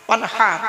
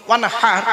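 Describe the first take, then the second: Both takes have the same delivery.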